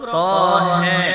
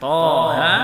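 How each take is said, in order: First: The final vowel leans slightly toward e. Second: Both vowels stay open, with no tilt. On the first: This is the reading with the lesser tilt. "ataupun dengan imalah sughra Tohe, tidak ada" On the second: This is the reading with no tilt. "bukan Toha"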